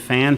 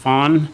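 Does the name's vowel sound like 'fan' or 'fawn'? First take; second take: fan; fawn. First: The vowel sounds like the one in 'fan'. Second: The vowel sounds like the one in 'fawn'. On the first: The speaker calls it wrong. "Sorry, said it wrong" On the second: The speaker calls it right. "pronounced Fawn"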